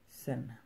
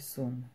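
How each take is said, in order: First: The vowel sounds like 'e'. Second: The vowel sounds like 'u'. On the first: The speaker calls it right. "a pronúncia correta é sen" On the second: The speaker calls it wrong. "de primeira, se eu ler isso, eu vou ler sum. Mas está errado"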